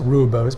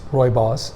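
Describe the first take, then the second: First: It is said the common English way. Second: It is said the South African way. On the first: The speaker calls it wrong. "commonly mis- mispronounced rooibos" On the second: The speaker calls it right. "but it's rooibos, depending on how you listen to a South African pronounce it"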